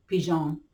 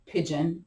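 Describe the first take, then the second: First: "pigeon." said pee-ZHAHN with a soft zh sound; "pigeon." drawn out as pee-zhahn, softly; playful fancy pronunciation. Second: Said in the usual way. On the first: Shown as a demonstration. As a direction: give "pigeon." a mock-French pee-zhahn. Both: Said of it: "as I like to say".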